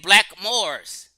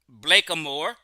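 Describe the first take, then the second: First: Black and moors are said with no vowel between. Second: An extra vowel links black and moor. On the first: The speaker calls it right. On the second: The speaker calls it wrong. "They didn't pronunciate it Blackamoor"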